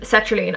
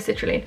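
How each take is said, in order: First: The name is said like sertraline. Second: The name is said like citrulline. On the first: The speaker calls it right. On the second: The speaker calls it wrong.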